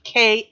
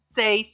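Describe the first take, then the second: First: The name begins with a hard K sound. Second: The name begins with a soft S sound. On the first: The speaker calls it right. "the C in Latin is a hard C sound" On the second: The speaker calls it wrong. "I was pronouncing it in Spanish"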